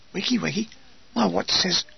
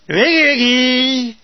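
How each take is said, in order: First: Soft, puzzled Wiggy, wiggy with a rise; sleepy echo. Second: Slow, loud drawn-out Wiggy, wiggy; wake-up call. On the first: Acted. Woken soldier repeating the call, soft and puzzled. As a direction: mumble Wiggy, wiggy back as a question. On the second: Retold or imitated. Sergeant rousing soldiers before dawn, slow loud call. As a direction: bellow Wiggy, wiggy to rouse a sleeper.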